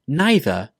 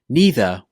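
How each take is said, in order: First: The first vowel is an eye sound. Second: The first vowel is an ee sound. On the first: "with an I" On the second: "with an E sound"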